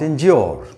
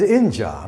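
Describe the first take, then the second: First: The ending is a fuller 'yoor' sound. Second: The ending is a short, plain 'uh' sound. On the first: The speaker calls it wrong. "not injure" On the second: The speaker calls it right. "Here it is inja"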